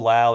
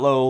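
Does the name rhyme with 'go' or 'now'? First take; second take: now; go. First: The name rhymes with 'now'. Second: The name rhymes with 'go'. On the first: The speaker calls it right. "That's how he says his name" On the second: The speaker calls it wrong. "Not Low"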